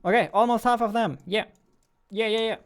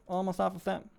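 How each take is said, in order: First: High, loud and fast burst; high, loud, fast amazement; excited. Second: Said in the usual way. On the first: Real, not acted. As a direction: rattle it off amazed at the count. Counter nears half.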